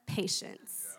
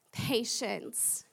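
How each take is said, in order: First: "patience" whispered low, voiceless and falling; whispered kicker. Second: Said in the usual way. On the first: Shown as a demonstration. Preacher whispering "patience" as the verse's final word to the congregation. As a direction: drop to a breathy whisper on "patience". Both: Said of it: "and the kicker".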